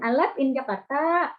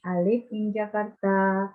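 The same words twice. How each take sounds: First: "live" mispronounced as "lap" or "lef", higher; higher-pitched wrong vowel in "live". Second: Slow model reading, "live" as "liv"; measured, correct "liv" in "live". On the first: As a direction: say "live" with an open E, as the mistake to avoid. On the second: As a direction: say "live" with a short I, slowly and evenly. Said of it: "Tapi live". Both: Shown as a demonstration.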